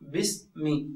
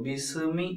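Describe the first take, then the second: First: The s is held without any following vowel. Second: An extra vowel is sounded after the s. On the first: The speaker calls it right. "ബിസ്മി എന്നേ പറയുള്ളൂ" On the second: The speaker calls it wrong. "ബിസ്മി എന്ന് പറയാറില്ല"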